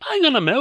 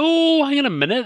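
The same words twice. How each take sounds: First: High, loud sudden realisation; surprised. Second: Even higher, louder dawning alarm; surprised. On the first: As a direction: blurt it out in surprise. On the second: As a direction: build the surprise further. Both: Real, not acted. Sudden realisation, mock alarm.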